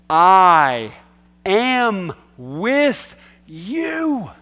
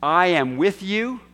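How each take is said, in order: First: Each word of "I am with you" stretched out, with pauses between; emphatic word by word. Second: Said in the usual way. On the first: Shown as a demonstration. Preacher showing how Jesus stressed every single one, emphatic and drawn out. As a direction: hammer "I", then draw out "am", "with", "you" one at a time. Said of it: "it's for emphasis". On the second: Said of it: "When Jesus said, "I am with you".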